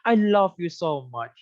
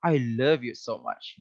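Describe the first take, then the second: First: LOVE said as "lof", drawn out slowly; slow "I lof you" with an open, rounded vowel in LOVE; wrong love vowel. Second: LOVE as "luhv" with a thick V; lower-pitched "I luhv you so much", V kept heavy; correct love vowel. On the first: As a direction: mispronounce LOVE as "laf/lof" with a final F. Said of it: "Kita nggak bilang gitu ya". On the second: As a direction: say LOVE with a short central "uh", not "lof". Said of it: "memang betulnya kayak gitu". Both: Shown as a demonstration.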